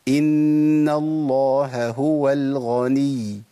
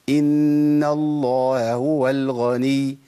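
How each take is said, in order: First: Both h sounds are clearly pronounced. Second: One h sound is dropped. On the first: The speaker calls it right. "ده الصح" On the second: The speaker calls it wrong. "فين راحت مني الهاء؟"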